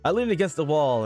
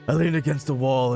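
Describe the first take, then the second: First: It is read in an ordinary, plain voice. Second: It is read in a dark, brooding voice. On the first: The speaker calls it wrong. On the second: The speaker calls it right.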